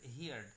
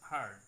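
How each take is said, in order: First: The vowel sounds like the one in 'ear'. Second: The vowel sounds like the one in 'her'. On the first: The speaker calls it wrong. "অনেকেই বলি হিয়ার্ড হিয়ার্ড" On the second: The speaker calls it right. "হিয়ার্ড হিয়ার্ড না বলে বলবো হার্ড হার্ড"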